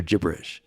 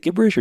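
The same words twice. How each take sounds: First: "gibberish" with a soft g, like a j. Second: "gibberish" with a hard g, as in give. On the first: Podcast host offering the other way to say it, soft-g pronunciation. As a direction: say "gibberish" starting with a j sound. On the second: Podcast host puzzling over a listener's word, hard-g pronunciation. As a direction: say "gibberish" starting with a hard g sound. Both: Shown as a demonstration. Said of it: "Is it gibberish or gibberish".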